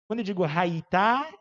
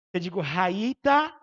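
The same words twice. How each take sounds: First: "raitá" with stress on -tá; stress on the final syllable. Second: "raita" with stress on rai-; stress on the first syllable. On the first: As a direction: land on the last syllable, "raitá". ("raitá" com a tônica no final) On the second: ("raita" com a tônica no início) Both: Shown as a demonstration.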